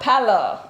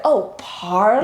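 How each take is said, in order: First: "Palo" as PAL-oh, with no r; parents' accented pronunciation. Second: "parlor" as PAR-ler, slow, r sounded; dawning realization, "parlor" with both r sounds; standard American pronunciation. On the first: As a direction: say "Palo" the Nigerian parents' way, r dropped. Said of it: "But they have an accent". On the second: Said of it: "Living room is the parlor". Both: Retold or imitated.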